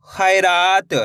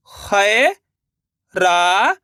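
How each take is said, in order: First: Said in the usual way. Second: खैरात stretched very slowly, rising; drawn-out sounding out. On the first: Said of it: "तो मिलके बन जाएगा". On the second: Shown as a demonstration. Teacher sounding out खैरात slowly for pupils. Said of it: "एक बार फिर से देखिए".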